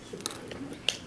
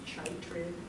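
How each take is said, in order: First: The word begins with a K sound. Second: The word begins with a CH sound. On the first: The speaker calls it right. "in science that's pronounced chytrid" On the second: The speaker calls it wrong. "It looks like it should be chitrid"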